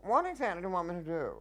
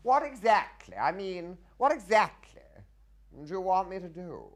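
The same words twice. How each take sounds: First: High, fast, stagey demand; quick indignant question. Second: High, loud stagey indignation; indignant question. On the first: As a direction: rattle off the feed line indignantly. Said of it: "But when I said". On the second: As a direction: demand it like a flustered nobleman. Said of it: "when I had to say to him". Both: Retold or imitated.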